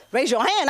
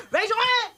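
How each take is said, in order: First: Said in the usual way. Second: High barked cop order; pitched-up mock police order; like cops shouting the order; cop command. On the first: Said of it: "P K games on TikTok". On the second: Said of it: "calling the cops".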